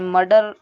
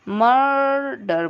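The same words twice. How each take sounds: First: The vowel before r is fuller, not light. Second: The vowel before r is a light uh. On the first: The speaker calls it wrong. "मर्डर नहीं बोलते हैं" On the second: The speaker calls it right. "मर्डर बोलते हैं"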